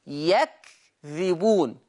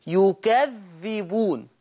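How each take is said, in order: First: يكذبون slowly as yakdhibun, kaf silent; يكذبون said slowly, open ya, silent kaf, light dhal; Hafs reading. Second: يكذبون slowly as yukadhdhibun with doubled dhal; يكذبون said slowly, yu-ka-dhdhi-bun, dhal doubled; Warsh reading. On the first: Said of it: "حفص يقرأ بفتح الياء وسكون الكاف وكسر الذال". (يكذبون بفتح الياء وسكون الكاف) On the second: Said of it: "بضم الياء وفتح الكاف وكسر الذال مع التشديد". (يكذبون بضم الياء وتشديد الذال) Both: Shown as a demonstration.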